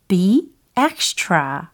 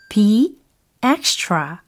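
No difference in how they are said.

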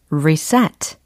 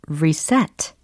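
The two takes are said the same way.

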